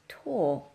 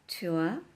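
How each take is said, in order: First: The vowel is one steady open or sound. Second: The vowel glides from oo toward uh. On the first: "or it can be pronounced tor" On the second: "it can be pronounced tour"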